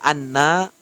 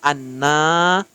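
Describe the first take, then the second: First: The final vowel is short. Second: The final vowel is drawn out long. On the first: It means simply 'that'. The speaker calls it right. "Kalau anna bahwasanya" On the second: It means 'that we'. The speaker calls it wrong. "kalau anna bahwa kami"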